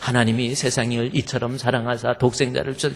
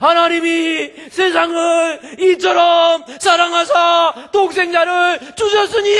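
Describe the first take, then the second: First: It is said at normal volume. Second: It is said loudly, voice raised.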